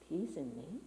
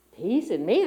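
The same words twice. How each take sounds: First: Much softer, lower, asking yourself quietly; soft rising question to yourself; hushed doubting question. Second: Louder, pushing the question out; loud disbelieving rise; louder incredulous question. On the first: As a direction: murmur the doubt inward. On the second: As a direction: challenge the idea aloud. Same words, louder challenge. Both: Retold or imitated.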